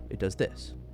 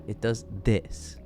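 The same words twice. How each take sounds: First: It sounds plain and matter-of-fact. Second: It sounds smug and condescending. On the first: The information is simply given. The speaker calls it right. "Rather than just" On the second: The listener is treated as dumb. The speaker calls it wrong. "he'll smile like you're dumb"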